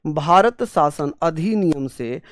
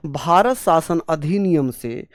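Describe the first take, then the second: No difference in how they are said.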